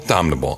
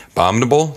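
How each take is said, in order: First: "abominable" dropped low with a falling tune; settled pronunciation. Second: "Abominable" with a rising tune; questioning pronunciation. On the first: Storyteller answering his own attempt, "abominable" falling low. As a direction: let "abominable" fall low and softer, like an answer. Trying out the word two ways. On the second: Storyteller trying out a tricky word, "Abominable" rising questioningly. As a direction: lift the end of "Abominable" like a question. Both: Shown as a demonstration.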